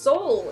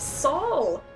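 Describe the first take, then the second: First: The vowel sounds like the word soul. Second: The vowel sounds like the name Saul. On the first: The speaker calls it wrong. "It's not pronounced soul" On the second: The speaker calls it right. "it's Saul"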